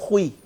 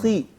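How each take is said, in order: First: The vowel starts rounded, sliding oo to ee. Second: The vowel is a plain ee sound. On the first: The speaker calls it wrong. "ना कि" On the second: The speaker calls it right. "खी, ना कि"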